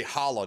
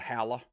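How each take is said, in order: First: Holla with a broad ah; other pronunciation. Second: Halla with a short a as in "pal"; local pronunciation. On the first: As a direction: say holla as "HAH-luh". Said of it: "You say holla, don't you?". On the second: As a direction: say halla as "HAL-uh". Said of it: "Instead of halla". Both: Shown as a demonstration.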